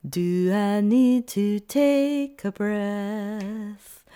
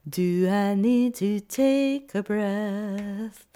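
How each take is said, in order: Both takes have the same delivery.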